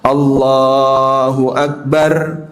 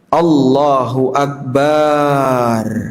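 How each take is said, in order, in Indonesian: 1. Vokal pada suku kata terakhir dibaca pendek. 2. Vokal pada suku kata terakhir dibaca panjang. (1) "Satu harokat saja. Jangan dua harokat" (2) "Bar dibaca panjang"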